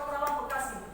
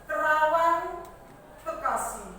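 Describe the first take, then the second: First: The words run together without a pause. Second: A short pause separates the two words. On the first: The speaker calls it wrong. "kan kita nggak bisa menyebut" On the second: The speaker calls it right. "Jadi ada seperti ada penjedahan"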